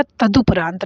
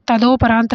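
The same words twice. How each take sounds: First: तदुपरांत with short "du"; correct vowel. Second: तदोपरांत with "do"; wrong vowel. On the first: Teacher giving the right form, correct vowel. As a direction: say तदुपरांत as "ta-du-paraant". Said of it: "तदुपरांत रहेगा". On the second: Teacher rejecting a misspelt option, wrong vowel. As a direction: say तदोपरांत as "ta-do-paraant". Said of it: "तदोपरांत नहीं रहेगा". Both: Shown as a demonstration.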